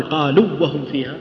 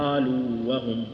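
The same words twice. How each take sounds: First: قالوا وهم said with the madd و merged into وهم; the wrong way to say قالوا وهم; wrong merged reading. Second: قالوا with its long و held fully before وهم; slow, keep the madd in قالوا whole; قالوا وهم with the long vowel not merged; full long vowel. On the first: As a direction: show the mistake, خطأ in قالوا وهم. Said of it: "ما نقول". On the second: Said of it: "نقول". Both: Shown as a demonstration.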